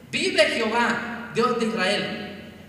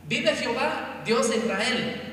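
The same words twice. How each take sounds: First: "vive Jehová" repeated slowly and louder, each word weighed; slow it right down and lean into the vow; slow solemn oath. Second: Firm oath at a normal pace. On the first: Elías repeats his vow to the servant, slow and solemn. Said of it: "Valiente Elías". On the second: Elías answers the frightened servant with a firm oath. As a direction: swear it boldly by God. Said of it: "que no morirás". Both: Acted.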